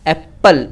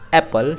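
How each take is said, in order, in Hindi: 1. p की आवाज़ दोहरी होती है और लंबी खींची जाती है। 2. p की आवाज़ एक बार, छोटी बोली जाती है। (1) "एप्पल ऐसे लोग बोलते हैं" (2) "सिर्फ एक वाला पी का साउंड आएगा"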